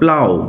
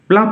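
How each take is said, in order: First: The word ends with an 'ow' sound. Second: The word ends with an 'f' sound. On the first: The speaker calls it right. "উচ্চারণ লক্ষ্য করো, প্লাউ" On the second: The speaker calls it wrong. "প্লাপ নয়"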